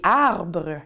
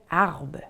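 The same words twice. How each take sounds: First: The final R sound is pronounced. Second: The final R sound is dropped. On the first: This is the standard French form. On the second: This is how Acadians said it.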